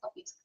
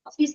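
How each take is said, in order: First: The first vowel sounds like English 'o'. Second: The first vowel sounds like Malayalam 'o'. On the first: The speaker calls it right. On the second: The speaker calls it wrong.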